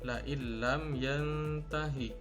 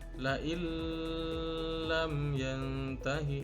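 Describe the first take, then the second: First: The merged sound is short, without nasal hum. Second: The merged sound is long, with nasal hum. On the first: The speaker calls it right. "cara bacanya adalah pendek" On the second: The speaker calls it wrong. "Tidak boleh dibaca panjang dengan disertai dengung"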